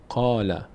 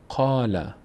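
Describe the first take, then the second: Both takes have the same delivery.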